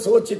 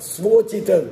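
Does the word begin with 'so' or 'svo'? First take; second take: so; svo. First: The first syllable is 'so' with no 'v'. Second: The first syllable is 'svo' with a 'v'. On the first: The speaker calls it wrong. "ಸೋಚಿತ ಸೋಚಿತ ಅಂತ ಕೆಲವರು ಉಚ್ಚಾರಣೆ ಮಾಡಿಬಿಡ್ತಾರೆ" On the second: The speaker calls it right. "ಸೋಚಿತ ಅಲ್ಲ"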